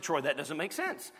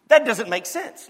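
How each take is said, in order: First: Softer, lower, a puzzled listener's objection; mock listener. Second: Louder, insisting it doesn't make sense; emphatic. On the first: Preacher voicing a doubting listener, soft and puzzled. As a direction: voice the congregation's doubt, quietly. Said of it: "your head's just perked up and you said". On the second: Real, not acted. Preacher to the congregation, insisting loudly. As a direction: hit it hard, like a puzzle nobody can solve.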